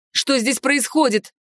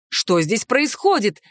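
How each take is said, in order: First: A firm, slow demand for answers. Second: Said in the usual way. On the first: A narrator's reading. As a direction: demand an explanation, unhurried. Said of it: "потребовала ответа я". (требовательно, с лёгким нажимом) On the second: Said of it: "спросили они одновременно".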